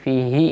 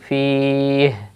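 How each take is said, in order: First: The word ends with a short i vowel. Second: The word ends on a bare final h. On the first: The speaker calls it wrong. "You will not read fihi in waqf" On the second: The speaker calls it right. "you will change this zir with jazm in the case of waqf"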